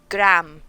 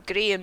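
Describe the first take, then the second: First: The name is said with an American accent. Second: The name is said without an American accent. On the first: The speaker calls it wrong. "some American accents ... they say Graham" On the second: The speaker calls it right. "they don't say Graham"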